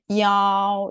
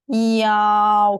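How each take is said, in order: First: It is said quickly, vowels blended together. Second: It is said slowly, vowels kept apart.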